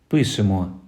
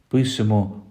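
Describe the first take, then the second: The two takes are said the same way.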